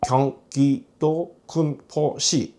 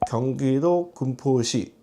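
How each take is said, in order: First: It is said in choppy, separated syllable bursts. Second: It is said very quietly, slurred and unclear. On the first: The speaker has a cerebellar disorder. "단속성이라고 해서 끊어지게 발음이 되면서" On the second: The speaker has had a stroke. "이렇게 발음이 아주 작고 정확하지 않고 알아듣기 어렵게"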